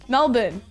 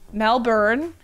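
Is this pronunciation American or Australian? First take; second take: Australian; American. First: It is said with an Australian pronunciation. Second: It is said with an American pronunciation. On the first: This is how locals say the city's name. The speaker calls it right. "I always say Melbourne correctly. I live here" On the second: This is how outsiders mispronounce the city's name. The speaker calls it wrong. "It's the Americans that say it wrong. They go"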